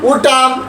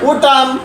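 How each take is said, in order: The two takes are said the same way.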